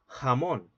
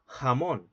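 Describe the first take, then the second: First: The j is a soft breathy h, American Spanish. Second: The j is a soft breathy h, American Spanish.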